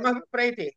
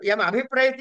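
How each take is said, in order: First: It runs together as one unbroken word. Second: It has a stressed break after the m sound. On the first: The speaker calls it right. "ఒకటే వాడు కదా" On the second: The speaker calls it wrong. "మకారాన్ని దగ్గర ఒక stress తోటి ... రెండు పదాలు మీ చెవుకు వినపడుతున్నాయి"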